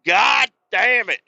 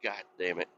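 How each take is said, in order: First: Loud, slow, higher swearing; a fed-up, drawn-out God damn it; frustrated curse. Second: Muttered curse. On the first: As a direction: drag out the curse in exasperation. Retold frustrated outburst. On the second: Retold annoyance on the bike. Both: Retold or imitated.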